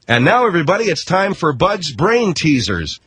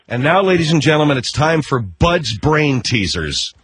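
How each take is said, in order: First: It is announced with lively enthusiasm. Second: It is announced flatly, without enthusiasm.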